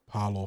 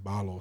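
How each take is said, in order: First: The name begins with a hard P sound. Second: The name begins with a soft B sound. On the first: The speaker calls it wrong. "after being Parlaw for so long" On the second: The speaker calls it right. "It's more of like a soft B"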